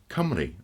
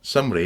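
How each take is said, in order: First: The word begins with a hard K sound. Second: The word begins with a soft S sound. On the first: The speaker calls it right. "it's Cymru ... a hard K" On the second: The speaker calls it wrong. "it's not a soft, it's not Sumri"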